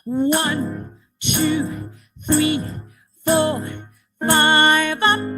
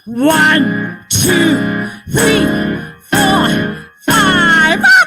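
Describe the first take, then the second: First: It is said at normal, quieter volume. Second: It is said more loudly.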